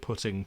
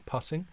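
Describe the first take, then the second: First: It rhymes with footing, not the golf sense. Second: It rhymes with shutting, as in golf. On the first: It means placing something somewhere. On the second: It means striking a golf ball gently.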